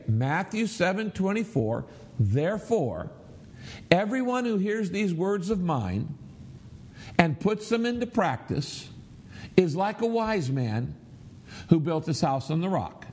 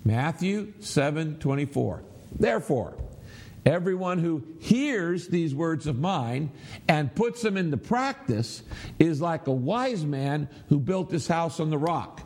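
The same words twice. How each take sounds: First: Verse broken into natural phrases with clear pauses. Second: Key words "hears", "practice" and "wise" punched out; emphasized key words. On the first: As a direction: stop after each phrase, keeping it higher-pitched. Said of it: "let's read it aloud this way". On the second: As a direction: lean hard on "hears", "practice" and "wise" within each phrase. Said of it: "this time let's emphasize the words". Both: Shown as a demonstration.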